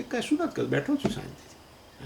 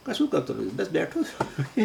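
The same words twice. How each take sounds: First: Serene quiet reply. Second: Casual laughing reply. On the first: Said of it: "આનું નામ ઉદાસીન અવસ્થા". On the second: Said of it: "phone કરીએ ને કોઈકને તો કે". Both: Retold or imitated.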